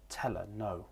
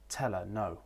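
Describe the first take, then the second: First: The h in 'her' is left out. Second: The same.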